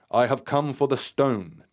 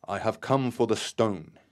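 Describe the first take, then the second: First: A much louder, higher firm call. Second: A firm, loud call, a touch higher. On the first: Terry demanding the stone, loud and firm. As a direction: demand it boldly into the night. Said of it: "Terry stated firmly". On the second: Terry calls out loudly for the stone. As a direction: announce it loudly to the unseen presence. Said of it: "he said loudly". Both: A narrator's reading.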